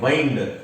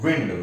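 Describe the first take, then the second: First: The vowel is a long 'eye' sound. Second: The vowel is a short 'ih' sound. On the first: It means to turn or twist. "इसको हम लोग पढ़ते हैं वाइंड" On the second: It means moving air. "इसको हम लोग विंड पढ़ते हैं"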